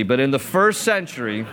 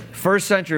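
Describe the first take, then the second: First: Said in the usual way. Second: "first century" repeated higher, hitting "first"; stress on first century. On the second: Shown as a demonstration. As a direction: lift and punch the word "first".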